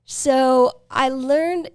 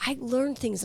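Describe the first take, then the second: First: Learned drawn out slow and loud; stress on learned. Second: Said in the usual way. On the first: Real, not acted. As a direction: lean hard and slow on learned. Proud stress on having learned.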